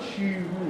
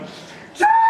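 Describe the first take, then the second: First: It is said softly and quietly. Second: It is said loudly with enthusiasm.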